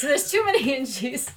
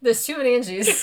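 First: Said through laughter, higher; laughing repeat. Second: Louder, higher repeat of the punchline; excited echo. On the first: Friend repeating the joke again, laughing. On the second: Friend echoing the joke with excitement. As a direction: bounce the line back, delighted. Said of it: "and it's too many inches". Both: Retold or imitated.

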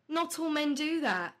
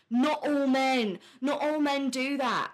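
First: Said in the usual way. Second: Slow, louder, mocking "Not all men". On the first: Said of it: "And it's like, yes, okay". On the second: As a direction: drag out "Not all men" like a whiny protester. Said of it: "it became an issue of, like".

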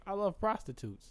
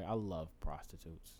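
First: Love stressed high, the rest falling. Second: Low, soft and slow, flat stress; I love prostitutes spoken quietly down low; quiet slip. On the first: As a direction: lean on the word love, pitched up. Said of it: "But that also came out so right". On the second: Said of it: "That came out very wrong". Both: Shown as a demonstration.

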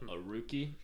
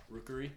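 First: "rookie" said as ROO-kee, two syllables, a slip; "rookie" in two syllables, ROO-kee, instead of the full word; mispronounced. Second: "Rookery" said fully as ROOK-er-ee, three syllables; "Rookery" said carefully in three syllables, ROOK-er-ee; corrected pronunciation. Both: Shown as a demonstration. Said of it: "R O O K E R Y".

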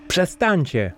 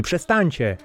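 First: Higher, mild mock shout. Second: Higher, pleading cry. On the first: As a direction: narrator yells at the sailors to stop, mild shout. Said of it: "krzyczałem". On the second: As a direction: beg them to stop, voice lifted. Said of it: "prosiłem". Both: A narrator's reading.

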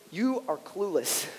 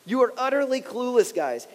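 First: Softer, slow and gentle; kind way of saying. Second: Said in the usual way. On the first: Shown as a demonstration. Pastor gently paraphrasing Jesus, soft and slow. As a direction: let it down easy. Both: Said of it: "the kind way of saying".

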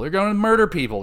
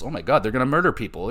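First: Higher, louder mock-horrified repeat; mock alarm. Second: Said in the usual way. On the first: Real, not acted. Reacting to Pretty Deadly's threat, mock-horrified and higher. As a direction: play up the outrage, half-joking.

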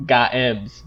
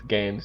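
First: "Games" drawn out as two syllables, Ga-ems; spelled-out reading. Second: Said in the usual way. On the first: Shown as a demonstration. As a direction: split "Games" slowly into Ga-ems. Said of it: "it looks like it says". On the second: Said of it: "but it's Games because".

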